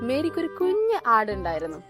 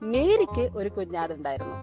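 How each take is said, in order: First: The word കുഞ്ഞ് carries the emphasis. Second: The word മേരിക്ക് carries the emphasis. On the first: The lamb was small and cute. "ഒരു cute ആട് അല്ലെ" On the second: Mary is the main point. "മേരിയാണ് അവിടുത്തെ highlight അല്ലെ"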